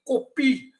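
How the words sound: It is said with a Korean accent. "and then Koreans will say"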